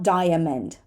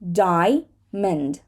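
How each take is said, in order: First: Every syllable of the word is pronounced. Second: One syllable of the word is dropped. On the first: The speaker calls it wrong. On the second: The speaker calls it right.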